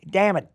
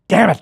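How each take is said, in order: First: It is said in a natural, ordinary voice. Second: It is said in a put-on character voice. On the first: "I didn't go" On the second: "I went, ... the voice goes with that guy"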